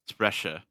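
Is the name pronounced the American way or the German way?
German. The name is said with a German pronunciation. "it's clearly stylized to look German, so"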